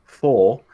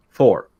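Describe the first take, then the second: First: "full" said as "four" with a softened R; no hard R. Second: "four" punched loud with a hard American R. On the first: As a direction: let the end of "full" drop into a vowel, British-style. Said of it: "You can't have the hard R". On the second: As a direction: say "four" like an American, R fully sounded. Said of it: "say it like an American". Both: Shown as a demonstration.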